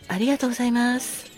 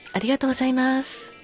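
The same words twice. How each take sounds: The two takes are said the same way.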